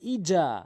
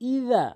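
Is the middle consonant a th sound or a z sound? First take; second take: z sound; th sound. First: The middle consonant is a z sound. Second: The middle consonant is a soft th sound. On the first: The speaker calls it wrong. "অনেকেই ভুল করে বলে ইজা" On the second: The speaker calls it right. "জালটা একদম নর্মালি জিব্বার আগা দাঁতের আগা থেকে"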